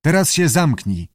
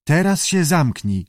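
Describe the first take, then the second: First: Lightly voiced keeper, higher; keeper's order. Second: Lightly voiced creature, higher; murmuring lizard echo. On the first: Keeper tells the chattering lizard off, ordering. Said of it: "powiedział". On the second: Lizard mumbles the keeper's order back, parroting. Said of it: "zamruczał jaszczur". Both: A narrator's reading.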